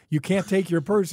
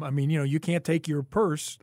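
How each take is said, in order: First: "purse" punched, louder and higher; indignant, louder second telling; emphatic repeat. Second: Said in the usual way. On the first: Real, not acted. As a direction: repeat it with outrage, hitting "purse".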